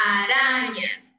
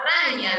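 First: Araña with a single soft tapped r. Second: Raña with a strong trilled rr at the start; wrong rolled r. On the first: Teacher shows children the correct soft r in araña. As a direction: tap the r once lightly in araña. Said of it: "Sino araña". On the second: Teacher shows children the wrong strong r in raña. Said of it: "no suena a raña". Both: Shown as a demonstration.

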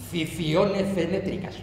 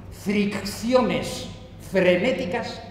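First: "ficiones fenétricas", comiéndose las erres de fricciones frenéticas; farfullado. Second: Said in the usual way. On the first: Retold or imitated. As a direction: imita un trabalenguas fallido en "ficiones fenétricas". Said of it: "le salía algo así como". (farfulla "ficiones fenétricas" con las efes atropelladas y las erres perdidas) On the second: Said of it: "al decir fricciones frenéticas".

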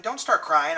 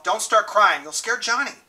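First: Said in the usual way. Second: Higher, pressing command to oneself; urgent self-command. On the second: A narrator's reading. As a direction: push yourself hard not to break. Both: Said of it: "I commanded myself".

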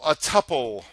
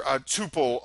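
First: "tuple" said TUP-pull; "tuple" rhyming with supple; short-U tuple. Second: "tuple" said TOO-pull; "tuple" rhyming with pupil; long-U tuple. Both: Shown as a demonstration. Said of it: "a much debated word here".

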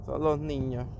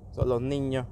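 The two takes are said the same way.

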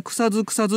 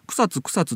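First: 草津 said kusa-ZU, ending voiced; local voiced ending. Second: 草津 said kusa-TSU, with a crisp tsu; unvoiced ending. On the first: Host quotes the locals, 草津 with voiced zu as kusazu. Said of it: "地元ではみんな". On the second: Host quotes visiting bathers, 草津 with unvoiced tsu as kusatsu. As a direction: say 草津 the modern way, "kusatsu". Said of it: "草津って言うようになってった". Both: Shown as a demonstration.

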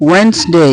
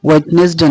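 First: "ওয়েডনেসডে" as wens-dey, silent d; higher, say "ওয়েডনেসডে" as wens-day; corrected pronunciation. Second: "ওয়েডনেসডে" as wet-nes-de; wrong pronunciation. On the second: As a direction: sound every part of "ওয়েডনেসডে", d included. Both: Shown as a demonstration. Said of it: "ওয়েডনেসডে না".

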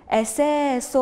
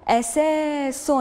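First: Said in the usual way. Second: Very slow, stretched syllables; أساس read very slowly, each syllable stretched; drawn-out model word. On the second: Shown as a demonstration. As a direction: hold each sound of أساس. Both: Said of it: "انتقلوا الكلمة الموالية".

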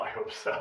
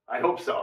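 First: Breathy whisper of "I hope so"; soft whispered afterthought; whispered echo. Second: Said in the usual way. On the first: Shown as a demonstration. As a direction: repeat "I hope so" under your breath.

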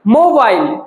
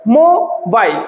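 First: Said in the usual way. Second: mobile in two separate parts, mo, bail; split into syllables. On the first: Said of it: "যখন আমরা এই ওয়ার্ডটাকে pronounce করছি". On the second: Shown as a demonstration. Teacher showing students the word's two syllables, split into parts. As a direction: break mobile after mo with a small gap. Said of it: "তখন আমরা দুটো ভাগে".

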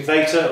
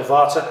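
First: Vata said as VAY-ter; long "ay" in the first syllable of Vata; alternative pronunciation. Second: Vata said as VAH-ter; alternative pronunciation. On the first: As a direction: say Vata to rhyme with "later". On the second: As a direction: open "ah" in the first syllable of Vata. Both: Shown as a demonstration. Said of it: "however you pronounce it".

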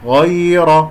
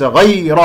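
First: "غير" with a smooth, drawn-out soft ay; correct soft glide. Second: "غير" with an over-pressed, tightened ya; wrong glide. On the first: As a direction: let the ya in "غير" flow gently. (ياء لينة في "غير") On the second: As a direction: press hard on the ya of "غير", as a mistake. (نطق خاطئ بالضغط على ياء "غير") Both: Shown as a demonstration. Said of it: "غير وليس غير".

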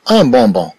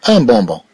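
No difference in how they are said.

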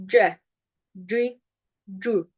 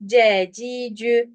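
First: "C, ci, cü" as Arabic jim syllables; correct Arabic articulation. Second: "C, ci, cü" with plain Turkish sounds; wrong Turkish-style reading. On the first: Teacher models Arabic "C, ci, cü" for students, correctly articulated. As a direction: say "C, ci, cü" from the middle of the tongue, Arabic-style. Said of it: "Arapça". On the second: Teacher showing students the mistake in "C, ci, cü", Turkish-sounding. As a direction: read "C, ci, cü" as ordinary Turkish syllables. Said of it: "Yanlış okumayı tekrar okuyorum". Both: Shown as a demonstration.

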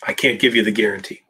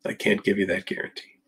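First: Said in the usual way. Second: "can't" leaned on, the rest much softer; stress on can't. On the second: Real, not acted. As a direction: hit "can't", then let the line drop quietly. Repeats the line, stress shifts.

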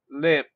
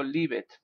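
First: "lived" as one short syllable; correct pronunciation of lived. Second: "live it" with an added second syllable; mistaken two-syllable lived. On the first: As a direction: say "lived" in a single beat, short i. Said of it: "I said". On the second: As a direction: sound out "live it" as two beats. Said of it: "no digo live it". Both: Shown as a demonstration.

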